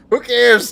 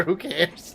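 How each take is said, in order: First: Who cares, much louder; loud dismissive yell; defiant shout. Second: Said in the usual way. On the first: Real, not acted. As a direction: shout it out defiantly, laughing at critics. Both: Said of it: "Cancel me".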